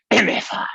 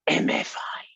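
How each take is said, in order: First: Higher, louder yell of "M F I"; shouted. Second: Breathy conspiratorial whisper of "M F I". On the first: Toddler yelling the fake swear at visitors. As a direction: blurt it out triumphantly. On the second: Toddler creeping up to visitors, whispering. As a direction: whisper the letters sneakily. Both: Retold or imitated.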